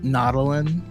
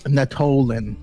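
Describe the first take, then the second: First: The middle syllable is not strongly stressed. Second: The middle syllable is strongly stressed. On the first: The speaker calls it right. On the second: The speaker calls it wrong.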